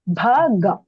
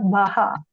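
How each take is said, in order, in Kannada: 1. ಮಧ್ಯದ ವ್ಯಂಜನ g ಶಬ್ದ. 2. ಮಧ್ಯದ ವ್ಯಂಜನ h ಶಬ್ದ. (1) "It is Bhaga" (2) "not Bhaha"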